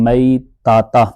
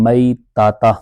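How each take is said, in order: The two takes are said the same way.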